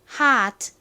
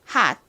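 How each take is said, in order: First: Said slowly, with an audible released final t. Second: Said fast, with a clipped, unreleased final t. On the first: "천천히 하면 hot, hot 이렇게 트 소리가 나지만" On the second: "빠르게 하면 hot, hot 이렇게 발음이 됩니다"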